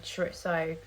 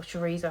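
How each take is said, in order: First: Chorizo pronounced "chuh-RIT-so"; first pronunciation of chorizo. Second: Chorizo with a 'z', not 'ts'; alternative pronunciation of chorizo. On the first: Vlogger describing her Spanish soup, chorizo said as "choritso". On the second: Vlogger unsure of the word, chorizo offered as "choreezo". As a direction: offer chorizo as the other way of saying it, "chuh-REE-zo". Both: Shown as a demonstration. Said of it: "however you say it".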